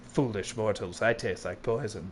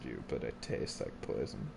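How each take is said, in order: First: Lower, softer mock dark lord; a hint of a gloating villain. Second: Eerie low whisper. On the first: Playing villain over game death. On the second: Pretend. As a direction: breathe it out like a ghost. Repeats line in eerie whisper.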